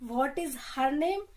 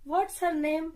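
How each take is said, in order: First: 'What is' is said as two full words. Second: 'What is' is shortened to 'what's'.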